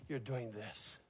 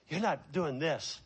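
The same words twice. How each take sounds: First: Much softer, falling on You're; quiet contrast. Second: Said in the usual way. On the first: Shown as a demonstration. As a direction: drop to a soft, knowing You're doing this.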